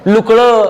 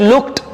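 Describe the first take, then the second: First: The ending sounds like a d. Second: The ending sounds like a t. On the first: The speaker calls it wrong. "तसं नाही" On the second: The speaker calls it right. "हा ट उच्चारायचा"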